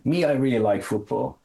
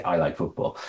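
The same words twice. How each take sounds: First: High, stressed "Me" falling into the rest; emphatic Me. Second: Said in the usual way. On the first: Shown as a demonstration. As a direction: hit "Me" up front as the emphatic topic. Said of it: "East African expression". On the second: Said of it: "So they just say".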